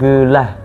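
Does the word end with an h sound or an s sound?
h sound. The word ends with a breathy h sound. This is how the Kedah dialect says it. "AS akan jadi IH"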